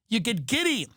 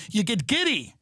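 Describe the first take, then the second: No difference in how they are said.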